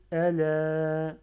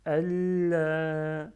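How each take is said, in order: First: Allah with a single light l, said slowly and loud; teacher shows Allah without the doubled lam; Allah without shadda. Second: Allah with a held, doubled l, slow and loud; teacher shows the doubled lam of Allah to students; Allah with shadda. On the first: En français : Allah sans chadda, un seul l. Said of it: "Si j'avais pas Shadda". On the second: En français : Allah avec chadda, l doublé et tenu. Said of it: "Et avec Shadda". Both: Shown as a demonstration.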